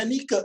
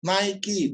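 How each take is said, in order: First: Nike said "ni-ke", the way it's written in Indonesian; Nike as "ni-kə", the old spelled-out way; Nike read as spelled. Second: Nike said the English way, "nai-ki"; Nike as English "NAI-kee". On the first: Retold or imitated. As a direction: read Nike letter by letter, "nee-keh". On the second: Shown as a demonstration. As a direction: say Nike as "nai-ki", with a light laugh. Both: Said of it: "Bacanya Nike tulisannya".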